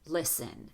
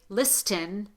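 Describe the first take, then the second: First: The T sound is left out. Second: The T sound is clearly pronounced. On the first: The speaker calls it right. "we say listen. The T is not pronounced" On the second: The speaker calls it wrong. "We don't say listen"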